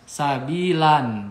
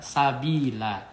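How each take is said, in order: First: The word ends with an n sound. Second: The word ends with a lengthened a vowel. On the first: The speaker calls it wrong. "Jadi bukan sabilan, bukan" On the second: The speaker calls it right. "tanwin dihilangkan ... dibaca fathah dua harokat"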